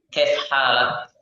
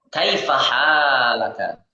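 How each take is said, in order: First: The final vowels are dropped from both words. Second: The final vowels are pronounced on both words. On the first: It is casual spoken conversation. "kita sukunkan huruf terakhir" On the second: It is the full form used when reading a text.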